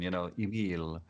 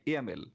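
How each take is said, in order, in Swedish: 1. Namnet uttalas på franska sätt. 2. Namnet uttalas på svenska sätt. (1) "But I always love the French pronunciation" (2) "It's in Sweden we say Emil"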